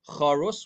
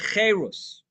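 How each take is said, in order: First: The first vowel sounds like 'a'. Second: The first vowel sounds like 'e'. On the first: Something is engraved. "can be read charus, which means engraved" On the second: Something is free. "with slightly different vowels can be read cherus, which means freedom"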